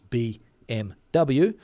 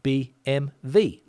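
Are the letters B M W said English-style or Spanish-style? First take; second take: English; Spanish. First: The letters are named the English way. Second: The letters are named the Spanish way. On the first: "It's clear that it's B M W" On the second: "Spanish people like to say B M W"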